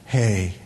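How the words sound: It is said calmly and softly.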